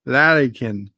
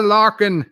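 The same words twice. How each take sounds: First: "Larrykin" in three syllables, LA-ree-kin; corrected pronunciation. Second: "larking" in two syllables, LAR-king; mispronounced larrikin. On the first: Shown as a demonstration. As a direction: try out "Larrykin" with an "ee" in the middle. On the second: Real, not acted. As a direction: say "larking" without the middle "ee" sound. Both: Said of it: "That's how it sounds".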